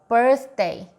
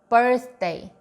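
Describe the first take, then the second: The two takes are said the same way.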